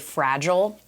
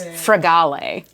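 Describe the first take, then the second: First: The name is said like the English word fragile. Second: The name is said differently from the word fragile. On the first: The speaker calls it wrong. "people mispronounce my last name all the time, and they say they say fragile" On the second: The speaker calls it right. "but it's fragale"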